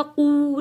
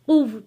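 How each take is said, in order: First: कु left open with no व at the end; कु, just the vowel, no closing व; wrong, open vowel. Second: कुव with a firm stop on the व; कुव, short कु then a clipped stop on व; correct stop on wow. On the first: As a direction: say कु as a bare open syllable, the mistake. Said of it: "कु नहीं पढ़ा जाएगा". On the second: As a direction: say कुव, closing hard on the final व. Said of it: "वाव के ऊपर सख्ती के साथ रुकेंगे". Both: Shown as a demonstration.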